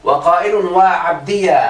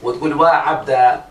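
First: وعبدي said slowly as waʕabdiya, with an open ya; vowelled ya. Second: وعبد said slowly as waʕabda, no ya; ya dropped. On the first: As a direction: stretch وعبدي into waʕabdiya, ending on -ya. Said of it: "بفتح الياء". (وعبدي تُنطق وعبديا بفتح الياء وألف الندبة) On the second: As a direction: drop the ya: وعبد becomes waʕabda. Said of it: "تحذفها خالص". (وعبد تُنطق وعبدا بحذف الياء) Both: Shown as a demonstration.

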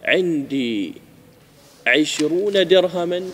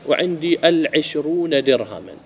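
First: عشرون said slowly, bare of al-; example without article. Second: العشرون said slowly with clear al-; measured contrast, sounding the article in العشرون; example with article. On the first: (مثال متأنٍّ دون أل) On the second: (مثال متأنٍّ مع أل) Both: Shown as a demonstration. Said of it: "إيش الفرق في المعنى".

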